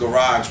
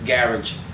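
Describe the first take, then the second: First: It is said with an American pronunciation. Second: It is said with a British pronunciation. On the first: "we pronounce it" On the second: "over there they pronounce it"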